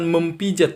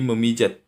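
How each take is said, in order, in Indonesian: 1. Bunyi p mengikuti m. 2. Tidak ada bunyi p yang mengikuti m. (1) "bukan mempijat" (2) "tetapi memijat"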